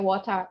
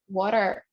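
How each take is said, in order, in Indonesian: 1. R di akhir dihilangkan, tidak diucapkan. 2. R di akhir jelas diucapkan.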